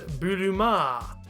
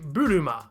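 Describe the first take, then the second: First: The final vowel is drawn out long. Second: The final vowel is short. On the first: "extend the final vowel sound so that it reads Buruma" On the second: "a straight Buruma"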